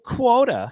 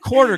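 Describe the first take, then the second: First: The r is dropped, in a New York accent. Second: The r is pronounced, in a plain accent.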